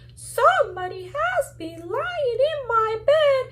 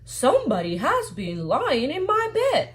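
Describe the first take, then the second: First: It is said in a tiny, small voice. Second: It is said in a medium-sized voice.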